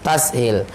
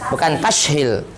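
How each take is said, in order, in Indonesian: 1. Dibaca dengan bunyi 's'. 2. Dibaca dengan bunyi 'sh'. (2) "bukan shin"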